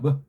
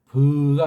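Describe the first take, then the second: First: The vowel is short, quick and reduced. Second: The vowel is full and clearly held. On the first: The speaker calls it right. "그냥 의자에 가깝게 빨랑 내요" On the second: The speaker calls it wrong. "버가 아니고"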